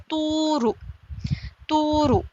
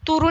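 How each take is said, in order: First: तूरु with the first ऊ drawn long, higher; stretched vowel. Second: Said in the usual way. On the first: Shown as a demonstration. Teacher corrects the reading, vowel drawn out. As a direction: hold the ऊ of तूरु one alif. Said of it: "एक अलिफ के बराबर यहाँ भी खींचेंगे". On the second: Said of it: "तूरु नहीं पढ़ेंगे इसे".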